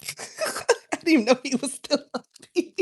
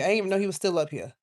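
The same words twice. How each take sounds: First: Repeated through real laughter, pitched way up; giggling disbelief at Wolverine still being there; laughing. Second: Said in the usual way. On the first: Real, not acted. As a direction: crack up while saying it again.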